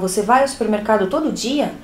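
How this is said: It is said as a question, rising at the end.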